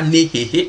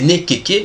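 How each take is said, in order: First: The repeated consonants are h sounds. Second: The repeated consonants are k sounds. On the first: This is the usual but mistaken reading. The speaker calls it wrong. "ce n'est pas nehehe comme on le dit habituellement" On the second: This reflects the true value of the sign. The speaker calls it right. "c'est nekeke"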